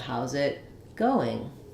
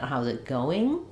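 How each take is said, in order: First: The voice rises then falls at the end. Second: The voice rises up through the end. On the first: The speaker calls it right. "I'm going to rise and fall" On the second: The speaker calls it wrong. "But I don't want to do that. ... Because it doesn't sound natural at all"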